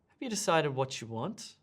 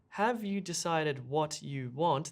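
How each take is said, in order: First: The t and y sounds merge into one. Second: The t and y sounds are kept separate. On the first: The speaker calls it right. "What we really say is" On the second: The speaker calls it wrong. "This is not how we speak at all"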